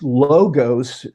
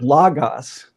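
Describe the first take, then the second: First: Both O vowels are long. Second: Both O vowels are short. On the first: The speaker calls it wrong. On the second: The speaker calls it right.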